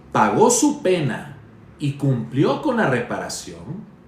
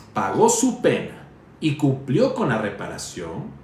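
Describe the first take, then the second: Both takes have the same delivery.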